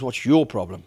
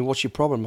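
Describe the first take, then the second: First: "your" stressed to throw the question back. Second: Said in the usual way. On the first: Retold or imitated. Bodyguard confronting a staring stranger, retold with stress on "your". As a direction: lean on "your" in a retold retort. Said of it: "went over to him kind of aggressively". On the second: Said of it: "he said to me".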